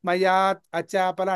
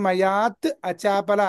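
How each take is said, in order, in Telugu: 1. t ధ్వని mayāt ను ముగిస్తుంది, acāpala నుండి వేరుగా ఉంటుంది. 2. t ధ్వని mayāt ను ముగిస్తుంది, acāpala నుండి వేరుగా ఉంటుంది.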